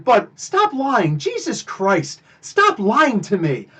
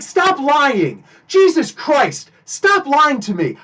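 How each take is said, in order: First: Calm, slow, firm rebuke to the guard; slow, deliberate scolding. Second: Raised, exasperated, slow on Jesus Christ; exasperated retold outburst. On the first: Retold or imitated. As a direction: lay it down slowly like a warning. Same line retold again. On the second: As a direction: snap at him to stop lying. Calling out the guard's lie.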